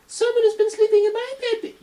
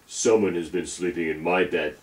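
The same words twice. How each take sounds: First: It is said in a tiny, high voice. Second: It is said in a big, deep voice. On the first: "squeaked in his tiny little voice" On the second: "shouted in his great big voice"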